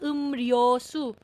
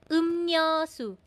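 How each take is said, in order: First: The second syllable starts with an L sound. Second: The second syllable starts with an N sound. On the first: The speaker calls it wrong. "hindi siya 음료수" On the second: The speaker calls it right. "Nakanisalize din po siya"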